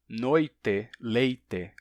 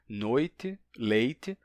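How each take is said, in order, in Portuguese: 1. A vogal final soa como 'e', sem chiado. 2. A vogal final soa como 'i', sem chiado. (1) "sem transformar o E final em I" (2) "quem não tem nenhum tipo de chiado vai dizer"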